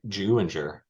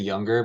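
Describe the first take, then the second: First: The name begins with a J sound. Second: The name begins with a Y sound. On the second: "we usually say younger"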